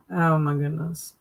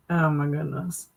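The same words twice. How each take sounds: The two takes are said the same way.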